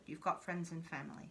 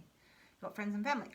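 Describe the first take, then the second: First: Softly spoken, almost breathed; hushed. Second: Said in the usual way. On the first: Shown as a demonstration. Reader softly reassuring the viewer they have support. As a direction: say it low and gentle, as comfort. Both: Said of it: "repeated line".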